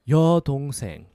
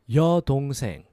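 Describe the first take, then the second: Both takes have the same delivery.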